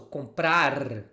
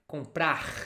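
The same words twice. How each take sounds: First: The R is said in a Southern Brazilian accent. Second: The R is said in a Rio de Janeiro accent.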